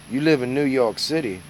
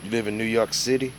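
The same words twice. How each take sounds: First: "live" punched a bit higher and louder; stress on live. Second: Said in the usual way. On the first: Shown as a demonstration. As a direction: lean on "live" with mock disbelief. Rereading the comment with emphasis.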